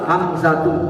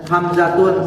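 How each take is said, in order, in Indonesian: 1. Kata ini berakhir pada vokal tanpa bunyi n. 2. Kata ini berakhir dengan bunyi n yang ditambahkan. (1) "Yang benar apa?" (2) "Hamzatun salah"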